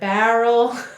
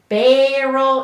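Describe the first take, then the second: First: It is said with a standard accent. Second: It is said with a Minnesota accent. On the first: "instead of" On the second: "we say"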